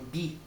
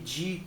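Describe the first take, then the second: First: The d is said plainly, as in Disney. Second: The d is said with a j-like sound. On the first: The speaker calls it right. "É o di, é Disney" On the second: The speaker calls it wrong. "não é aquele di com, com o J"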